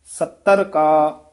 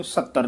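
First: ਸੱਤਰ slow, doubled tt and plain r; careful pronunciation. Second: ਸੱਤਰ quick, ending in a flapped ṛ; hurried reading. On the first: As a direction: press the tt of ਸੱਤਰ, then ਕਾ. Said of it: "ਸੱਤਰ ਪਦ ਵੀ". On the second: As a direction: toss off ਸੱਤਰ as "sattaṛ". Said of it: "ਇਹ ਸੱਤਰ ਨਹੀਂ ਕਹਿ ਦੇਣਾ". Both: Shown as a demonstration.

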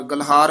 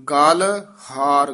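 First: ਗਲਹਾਰ quickly as one word; run together. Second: ਗਲ ਹਾਰ slowly, as two separate words; separated words. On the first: Teacher showing the mistake, ਗਲਹਾਰ fused fast. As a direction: join ਗਲ and ਹਾਰ with no gap. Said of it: "ਇਕੱਠਾ ਨਹੀਂ ਕਹਿ ਦੇਣਾ". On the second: Teacher showing correct reading, ਗਲ ਹਾਰ kept apart. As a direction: part ਗਲ from ਹਾਰ, drawing each out. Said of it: "ਗਲਹਾਰ ਇਕੱਠਾ ਨਹੀਂ ਕਹਿ ਦੇਣਾ". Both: Shown as a demonstration.

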